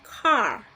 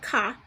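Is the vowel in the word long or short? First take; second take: long; short. First: The vowel is said long. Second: The vowel is said short. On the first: The speaker calls it right. "but you're gonna say it car" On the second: The speaker calls it wrong. "you cannot say that car"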